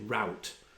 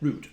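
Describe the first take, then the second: First: The word is said the American way. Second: The word is said the non-American way.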